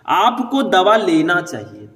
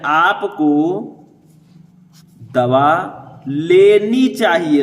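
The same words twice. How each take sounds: First: Said in the usual way. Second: Slow corrected take with लेनी pressed hard; stress on लेनी. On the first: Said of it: "इसमें गलती क्या है?". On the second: Shown as a demonstration. Teacher to students, fixing the sentence, slowly stressing लेनी. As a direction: drag out दवा लेनी चाहिए and lean on लेनी. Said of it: "लेना के जगह पर लेनी कर दीजिए".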